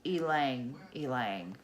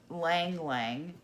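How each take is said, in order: First: "ylang ylang" with an "ee" before each "lang"; corrected pronunciation. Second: "lang lang" said slowly, without the opening "ee" sound; wrong pronunciation. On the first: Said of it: "It is". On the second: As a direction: say "lang lang" as two plain syllables. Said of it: "that is not how you pronounce it". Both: Shown as a demonstration.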